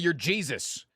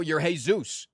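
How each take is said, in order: First: The name is said with an American pronunciation. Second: The name is said with a Spanish pronunciation. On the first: "If you're in America" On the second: "If you're in Mexico"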